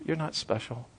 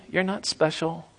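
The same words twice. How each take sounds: First: Much softer echo, almost breathed; near whisper. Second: Softer, hushed repeat; dropped low. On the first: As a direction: let it fade almost to nothing. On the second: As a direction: pull the voice right down and let it land quietly. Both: Acted. Repeated line, dropping away.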